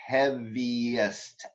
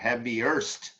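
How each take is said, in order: First: No R sound is heard before the ending. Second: An R sound is heard before the ending. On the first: The speaker calls it right. "There's no R in there" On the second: The speaker calls it wrong. "you're giving me an R sound in there"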